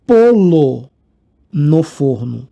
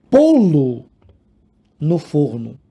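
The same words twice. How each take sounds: First: "polo no forno" with polo said as one word, stress on the first o; teacher's deliberately wrong version, "polo" loud; a punchline "polo" said plainly; wrong form polo. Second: "pô-lo no forno" with a closed, stressed "pô" before "lo"; careful demo of the right "pô-lo"; correct pô-lo. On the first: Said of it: "Por quê? O bolo é igual a moto". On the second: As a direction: spell out "pô-lo" as the teacher's model. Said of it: "Polo, polo parece frango espanhol". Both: Shown as a demonstration.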